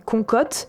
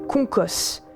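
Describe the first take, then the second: First: The name ends in a T sound. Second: The name ends in an S sound. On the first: The speaker calls it wrong. "ni Concote" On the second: The speaker calls it right. "mais Concos"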